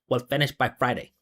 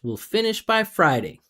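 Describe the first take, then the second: First: The pitch stays flat with no melody. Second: The pitch slides up and down melodically. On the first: The speaker calls it wrong. "flat, no pitch, no no connection, no resonance, no musicality. Not English" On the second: The speaker calls it right. "double, triple, quadruple down on that musicality, slide up and down, creating pitch"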